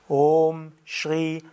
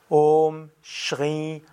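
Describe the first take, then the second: No difference in how they are said.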